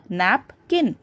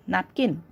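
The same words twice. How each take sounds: First: "napkin" with a pause after nap; split into syllables. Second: Said in the usual way. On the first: Shown as a demonstration. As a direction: break "napkin" into nap, kin. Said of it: "you give a pause after per".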